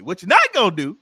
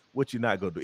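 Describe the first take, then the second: First: High and loud, stern and animated; animated warning. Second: Said in the usual way. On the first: Shown as a demonstration. Comedian showing how a mama really says it, animated. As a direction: warn them like a mama who caught you. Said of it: "It's like it's animated". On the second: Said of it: "it's never like".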